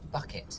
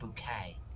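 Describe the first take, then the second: First: The word ends with a clear 't' sound. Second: The word ends with an open 'ay' sound. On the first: The speaker calls it wrong. "It's not pronounced bucket" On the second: The speaker calls it right. "It's pronounced bouquet"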